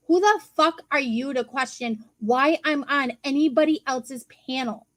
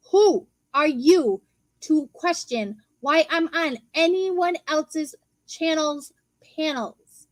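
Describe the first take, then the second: First: Said in the usual way. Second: "Who are you" slow and hit hard, word by word; slow it right down, spacing "anyone else's channel's panels"; slow, emphatic. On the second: Retold or imitated. Retort to someone questioning their panel spot, slow and emphatic.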